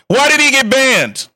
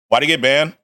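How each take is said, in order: First: It is yelled loudly, like all-caps text. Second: It is said at a normal, calm volume.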